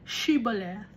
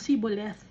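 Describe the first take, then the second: First: It is said the Gileadite way, with 'sh'. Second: It is said the Ephraimite way, with 's'.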